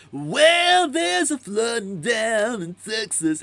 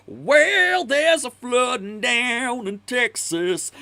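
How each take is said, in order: First: High, slow, laid-back surfer voice; surfer dude singer. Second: High, slow, strained blues singer; sing-speak it like a bluesman, stretched out. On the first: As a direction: croon it like a chill surfer dude. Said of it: "kinda sounds like a surfer dude". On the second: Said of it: "His real voice is like". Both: Retold or imitated.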